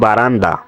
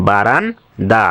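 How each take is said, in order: First: Said in the usual way. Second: "বারান্দা" broken as "বারান-দা"; প্রমিত উচ্চারণ. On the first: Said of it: "এর মানে হচ্ছে". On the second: Shown as a demonstration. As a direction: pause inside "বারান্দা", baran then da. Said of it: "এবং এটার উচ্চারণ". ("বারান্দা" ভেঙে বারান-দা উচ্চারণ)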